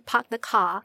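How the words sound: It is British-sounding, with the R sounds dropped.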